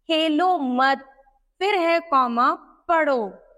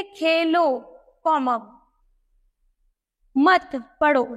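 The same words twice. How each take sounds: First: खेलो मत together, then पढ़ो set apart; pause after मत. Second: खेलो set apart, then मत पढ़ो together; pause after Khelo. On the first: Teacher moves the comma to change the meaning, pause after मत. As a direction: hold back पढ़ो until after the spoken comma. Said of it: "अर्थात यहाँ पढ़ने के लिए भी कहा जा रहा". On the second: Teacher shows pupils where the comma falls, pause after Khelo. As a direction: break after Khelo, saying the comma aloud. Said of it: "हमें यह पता नहीं कि यहाँ खेलने के लिए". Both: Shown as a demonstration.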